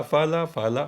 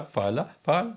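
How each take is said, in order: First: فالا said with the final vowel open and sounded; teacher sounds فالا fully to the end, vowel held open. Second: فالا twice, then فال cut short with the final ل silent-voweled; closed ending. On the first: Teacher shows a student فالا with its final vowel sounded. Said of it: "فالا کی نہیں نکلتی". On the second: Teacher contrasts فالا with a clipped closed فال for the student. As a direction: end on فال, stopping dead on the ل. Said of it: "آواز فال کی نکلتی ہے". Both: Shown as a demonstration.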